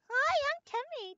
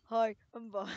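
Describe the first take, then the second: First: It is said in a high voice. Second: It is said in a deep voice.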